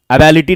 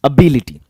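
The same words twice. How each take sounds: First: एबिलिटी said wrongly as "a-BA-li-ti"; mispronunciation. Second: एबिलिटी as "a-BI-li-ti", lower and falling; correct pronunciation. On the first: English teacher warns students off this form, mispronounced. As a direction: say एबिलिटी with an open "a" after the b. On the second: English teacher gives students the right form, carefully pronounced. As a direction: say एबिलिटी with "bi" in the middle. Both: Shown as a demonstration. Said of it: "एबिलिटी नहीं बोलने का".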